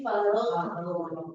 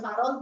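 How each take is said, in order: First: The final consonant sound keeps flowing. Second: The final consonant is cut off abruptly. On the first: The speaker calls it right. "tapi farogh" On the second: The speaker calls it wrong. "bukan farogh"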